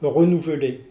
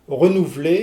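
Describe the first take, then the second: First: The inner e sound is pronounced. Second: The inner e sound is dropped. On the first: The speaker calls it right. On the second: The speaker calls it wrong.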